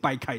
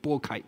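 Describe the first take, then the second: First: The first syllable is pronounced bāi. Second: The first syllable is pronounced bò. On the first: The speaker calls it wrong. "我们刚刚念成掰开对不对" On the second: The speaker calls it right. "应该都拨开"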